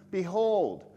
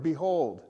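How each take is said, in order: First: "Behold" loud, firm, falling; emphatic behold. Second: "behold" said loud and falling; emphatic behold. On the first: Preacher telling the congregation to look here. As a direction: call out "Behold" to grab attention. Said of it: "Pay attention here". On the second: Preacher spotlighting the psalm's first word. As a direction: announce "behold" like a command. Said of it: "first word". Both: Shown as a demonstration.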